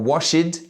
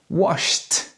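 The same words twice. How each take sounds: First: The ending is not a plain T sound. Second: The word ends with a plain T sound. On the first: The speaker calls it wrong. "or washed" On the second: The speaker calls it right. "but washed"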